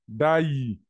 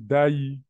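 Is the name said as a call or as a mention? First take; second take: call; mention. First: The name is called out, as an address. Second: The name is said plainly, as a mention. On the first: The person is being addressed directly. "Quand on, on l'interpelle, on dit Daï" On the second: The person is being talked about. "quand on parle de lui, on dit Daï"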